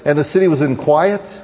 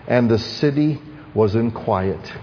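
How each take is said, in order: First: The phrase is read at a fast pace. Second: The phrase is read at a slow pace. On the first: "I read something quickly" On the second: "I hope this teaches you to slow down"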